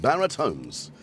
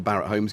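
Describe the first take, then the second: First: Imitated housing advert voiceover; Barrett Homes guy. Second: Said in the usual way. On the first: Streamer mimics the Barrett Homes advert man, advert voice. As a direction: announce the brand like an advert. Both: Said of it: "it's a Barrett Homes guy again".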